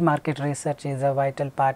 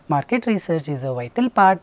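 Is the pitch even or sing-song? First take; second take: even; sing-song. First: The pitch stays level all the way through. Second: The pitch swings up and down all through. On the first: The speaker calls it right. "Try to be at a rhythmic speed. ... Like this, try to be more fluent and don't give intonation" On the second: The speaker calls it wrong. "Don't sing. ... Don't do this. You don't get the marks for that"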